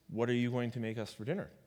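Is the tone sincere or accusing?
sincere. It is asked as a sincere question.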